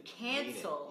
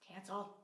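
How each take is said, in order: First: It is said firmly, with authority. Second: It is said lightly, without conviction. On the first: The speaker truly means it. The speaker calls it right. "say it with authority" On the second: The speaker does not really mean it. The speaker calls it wrong. "they laugh, and they're like"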